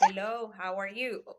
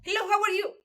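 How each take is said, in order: First: The phrase is spoken slowly and clearly. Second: The phrase is spoken quickly and is hard to follow. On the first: The speaker calls it right. "Para que se escuche, que la gente le entienda a uno" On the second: The speaker calls it wrong. "Eso no se entiende nada"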